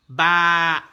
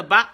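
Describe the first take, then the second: First: "ba" with a held, loud aa; drawn-out "ba"; long vowel. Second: "ba" with a brief a; quick, short "ba"; short vowel. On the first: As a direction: stretch the a of "ba". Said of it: "les voyelles longues". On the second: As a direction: keep "ba" short. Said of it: "les voyelles brèves". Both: Shown as a demonstration.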